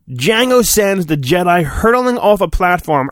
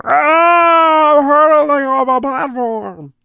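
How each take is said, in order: First: Said in the usual way. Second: Hammed-up high cry, then the words higher; dramatic fall cry. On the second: Reading the storybook, hamming up Obi-Wan's fall with a high cry. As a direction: scream as if falling, overdone.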